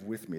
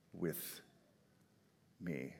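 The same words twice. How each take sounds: First: Said in the usual way. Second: "with" drawn out soft, then "me" lower and quieter; stressed with me. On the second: Shown as a demonstration. Pastor savoring the promise, soft stress on with me. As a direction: lean softly into "with me". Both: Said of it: "This is the culmination of".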